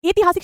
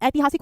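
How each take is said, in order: First: ऐतिहासिक opened with a close "e"; wrong pronunciation. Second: ऐतिहासिक opened with a wide "ai"; correct pronunciation. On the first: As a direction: say ऐतिहासिक as "etihasik". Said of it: "ऐतिहासिक शब्द नहीं होता". (गलत उच्चारण, ऐतिहासिक को एतिहासिक बोलें) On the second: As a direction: say ऐतिहासिक as "aitihasik". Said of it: "ऐतिहासिक होता है". (सही उच्चारण, ऐतिहासिक के शुरू में ऐ) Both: Shown as a demonstration.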